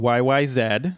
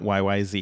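First: The last letter is said the Canadian way, 'zed'. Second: The last letter is said the American way, 'zee'.

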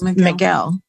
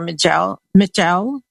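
First: The G is said as a hard sound. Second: The G is said as a soft sound. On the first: "I've always heard it pronounced Miguel" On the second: "pronounced with a soft G"

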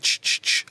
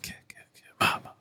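First: It is a series of soft 'ch' sounds. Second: It is 'ki ki' followed by 'ma ma'. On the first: The speaker calls it wrong. "that's not right" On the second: The speaker calls it right. "It's the first syllable of kill, and the first syllable of ma"

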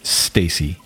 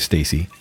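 First: The first sound is strong and clearly pronounced. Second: The first sound is weak and clipped. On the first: The speaker calls it right. "pronounce the first letter" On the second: The speaker calls it wrong. "I don't normally just say Stacy"

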